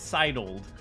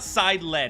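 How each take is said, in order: First: The word ends without a clear 'led' syllable. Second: The word ends in a clear 'led' syllable. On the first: The speaker calls it right. "it's sidled" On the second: The speaker calls it wrong. "it's not side-led"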